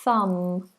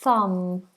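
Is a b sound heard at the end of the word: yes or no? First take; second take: no; no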